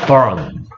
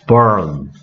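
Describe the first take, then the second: First: It is said slowly as two separate syllables. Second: It is said quickly as one blended syllable.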